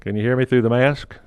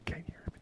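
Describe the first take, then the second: First: Said in the usual way. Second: Unvoiced, barely audible whisper. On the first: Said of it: "Am I muffled?". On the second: Shown as a demonstration. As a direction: mouth it almost silently. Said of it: "I wasn't saying anything".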